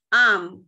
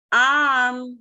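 First: The vowel is short and clipped. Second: The vowel is long and drawn out. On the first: The speaker calls it wrong. "không khác gì âm a ngắn cả" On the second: The speaker calls it right. "Mình chú ý kéo dài âm a ra nhé"

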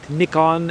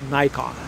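First: The name is said the European way. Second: The name is said the American way. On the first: "For people in Europe, you might call it Nikon" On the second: "since I'm an American, more or less, I'll go ahead and call it Nikon"

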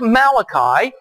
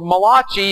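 First: The name is said in a plain English accent. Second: The name is said in an Italian accent.

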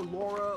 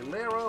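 First: The first vowel sounds like 'aw'. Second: The first vowel sounds like 'ah'. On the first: "I call her Laura" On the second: "some people say it's Lara"

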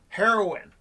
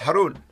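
First: The name sounds like the word heroin. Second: The name does not sound like heroin. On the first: The speaker calls it wrong. "some people say it wrong. Some people say heroin" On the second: The speaker calls it right. "It's Haroun"

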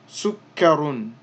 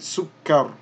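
First: The word ends with a final -un sound. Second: The word ends on r with no -un. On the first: "So here we would say sukkar, sukkarun" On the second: "because we won't be pronouncing this last dhammatan, we're going to say sukkar"

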